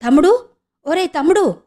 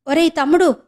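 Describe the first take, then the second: First: Higher, louder call to a brother. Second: Calling out. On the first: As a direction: call out after him desperately. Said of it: "అరిచింది". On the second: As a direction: cry out to stop him leaving. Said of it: "గట్టిగా అరిచి". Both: Acted.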